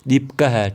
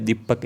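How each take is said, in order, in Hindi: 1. शब्द के अंत में एक अतिरिक्त फुसफुसाती 'ha' जुड़ती है। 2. शब्द सादा पढ़ा जाता है, अंत में 'ha' नहीं। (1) "आपको पढ़ना है" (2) "ये नहीं पढ़ना"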